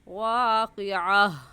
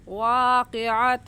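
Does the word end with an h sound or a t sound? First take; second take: h sound; t sound. First: The word ends with an h sound. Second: The word ends with a t sound. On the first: The reciter stops after this word. "वक़फ़ की सूरत में हा बन जाती है" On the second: The reciter joins this word to the next. "अगर मिलाकर पढ़ेंगे तो ऐसे पढ़ा जाएगा"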